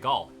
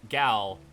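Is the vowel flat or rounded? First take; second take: rounded; flat. First: It has a rounded Canadian vowel. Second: It has a flat American vowel.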